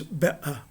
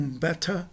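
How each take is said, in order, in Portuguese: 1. A consoante do meio é uma oclusiva glotal. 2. A consoante do meio é um som de t claro. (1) "mas better" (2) "Eles não pronunciam better"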